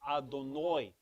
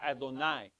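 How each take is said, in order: First: The last vowel sounds like 'oh'. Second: The last vowel sounds like 'ah'. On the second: "Instead of an A"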